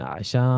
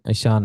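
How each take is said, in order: First: The word starts with a throaty 'ain' sound. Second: The word starts with a plain vowel sound. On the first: The speaker calls it right. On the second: The speaker calls it wrong.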